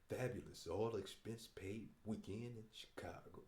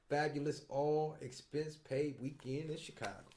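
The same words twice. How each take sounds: First: It is read in a put-on seventies voice. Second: It is read in his plain voice.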